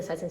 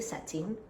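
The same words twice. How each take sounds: First: Said in the usual way. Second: "satin" in a strong African accent. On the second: Shown as a demonstration. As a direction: say "satin" the African way, vowels open. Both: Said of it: "My very African accent".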